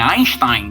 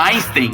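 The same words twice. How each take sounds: First: The name is pronounced the German way. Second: The name is pronounced the English way. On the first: The speaker calls it right. "É Einstein, na verdade" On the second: The speaker calls it wrong. "A gente fala errado, né? ... anglicaniza"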